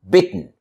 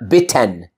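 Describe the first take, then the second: First: The T moves straight into N, no vowel. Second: A clear T and vowel come before the N. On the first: The speaker calls it right. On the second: The speaker calls it wrong. "Not bitten"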